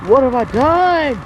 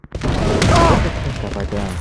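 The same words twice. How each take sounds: First: Higher, louder, slow wail; anguished cry. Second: Lower, hushed horror; stunned guilt. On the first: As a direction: cry it out in horror. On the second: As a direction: whisper it to yourself in shock. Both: Acted. After injuring opponent.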